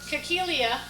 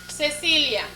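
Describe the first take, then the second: First: The name begins with a hard k sound. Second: The name begins with a soft s sound. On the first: The speaker calls it wrong. "It doesn't go Cacilia, right? That would sound funny too" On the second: The speaker calls it right. "Cecilia uses that. Ceci"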